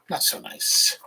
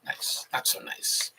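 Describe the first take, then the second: First: Said in the usual way. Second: Whisper. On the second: Shown as a demonstration. Whispered reading of a phrase.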